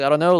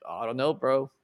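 First: Loud, rising bewildered reply; louder rising. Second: Said in the usual way. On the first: Retold or imitated. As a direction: push it out louder, questioning. Retold reply, repeated louder.

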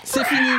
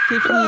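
First: Raised voice. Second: Shrill shout to stop them. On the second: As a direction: yell to end the bit. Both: Real, not acted.

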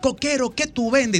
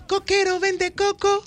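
First: Higher call sung to the singer; sung, demo your line; sung, question half of the hook. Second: Much higher, slow and teasing; sexy. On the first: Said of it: "yo voy a decir". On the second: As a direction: sing it sexy to her. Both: Shown as a demonstration.

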